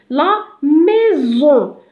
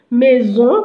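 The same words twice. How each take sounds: First: "maison" very slowly, stretched over two syllables; slow, lingering teacher's "maison"; sounding out. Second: Said in the usual way. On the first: Shown as a demonstration. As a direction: draw out "maison" so the z is heard. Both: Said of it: "On le prononce ze".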